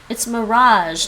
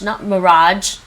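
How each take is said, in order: First: The middle consonant is a soft zh sound. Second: The middle consonant is a hard j sound. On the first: The speaker calls it right. "J like in mirage" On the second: The speaker calls it wrong. "that's not the sound they're playing me"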